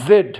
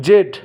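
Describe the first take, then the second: First: জেড opening on a long zzz, "zed"; buzzed Z. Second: জেড with a hard j, "jed"; no buzz, say জেড with জ; Bengali J for Z. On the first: Teacher giving the correct Z, buzzed. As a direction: lean on the buzz in জেড. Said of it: "exactly উচ্চারণটা এরকম হয়". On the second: Teacher imitating learners' mistake, hard j. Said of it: "আমরা অনেকে বলি". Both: Shown as a demonstration.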